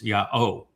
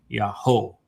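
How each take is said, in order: First: No h sound is heard in the middle. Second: An h sound is heard in the middle. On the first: The speaker calls it right. "it's yao" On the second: The speaker calls it wrong. "it's not yaho"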